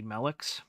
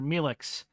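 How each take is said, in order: First: The name is said not rhyming with Felix. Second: The name is said to rhyme with Felix. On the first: "it might be Melix more appropriately" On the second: "I tend to pronounce that way because of its resemblance to Felix"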